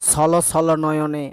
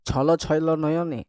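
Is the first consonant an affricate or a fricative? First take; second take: fricative; affricate. First: The first consonant is a hissing fricative. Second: The first consonant is a plain affricate.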